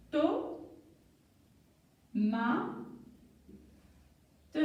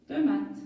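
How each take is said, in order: First: "To, ma, te" with long pauses between; syllable by syllable. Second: Said in the usual way. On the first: Shown as a demonstration. Teacher building a word, "To, ma, te" widely separated. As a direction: hold each syllable apart before blending. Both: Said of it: "un petit jeu de lecture".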